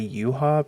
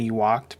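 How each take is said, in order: First: The name ends with an 'ah' sound. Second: The name ends with a 'k' sound. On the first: Other people's way of saying the name. "a bunch of other people say Yuha because I have no idea why. None of those letters should be pronounced that way" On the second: The speaker's own way of reading the name. "I always say Ewok because it looks like that's how you would pronounce it"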